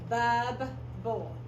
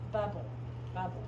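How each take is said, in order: First: BUB, pause, BULL, each part separate; syllable by syllable. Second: Said in the usual way. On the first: Shown as a demonstration. Teacher decodes the word, BUB then BULL apart. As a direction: sound out BUB and BULL as two pieces. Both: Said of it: "final stable syllable bull and then the rest".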